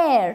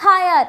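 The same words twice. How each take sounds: First: "air" as one open syllable, no H; silent H. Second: "higher" with H sounded, two syllables; wrong pronunciation. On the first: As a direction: say heir just like "air". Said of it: "That is how we pronounce it". ("air" ಎಂದು H ಇಲ್ಲದೆ "ಏರ್") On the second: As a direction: read heir wrongly as "higher". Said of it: "It's not higher". ("higher" ಎಂದು H ಉಚ್ಚರಿಸಿ "ಹಯರ್") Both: Shown as a demonstration.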